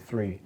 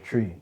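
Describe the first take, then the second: First: It is said with an English 'th' sound. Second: It is said with a Jamaican 't' sound. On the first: "my mum would say three" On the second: "my dad would say tree"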